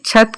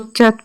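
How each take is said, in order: First: The first consonant has a puff of breath. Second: The first consonant has no puff of breath. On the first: The speaker calls it right. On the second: The speaker calls it wrong.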